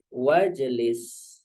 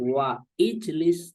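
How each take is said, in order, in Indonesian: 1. Kedua kata disambung tanpa bunyi 'i'. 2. Kedua kata dipisah dengan bunyi 'i'. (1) "maka bacanya langsung wajlis" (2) "bukan wa ijlis"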